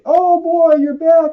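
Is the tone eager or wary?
eager. It sounds eager and welcoming.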